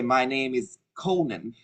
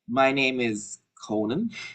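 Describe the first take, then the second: First: The voice falls at the end. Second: The voice rises at the end. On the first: It is a plain statement. The speaker calls it right. "so you can say" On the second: It sounds like asking the listener a question. The speaker calls it wrong. "for upspeaking, we use you say"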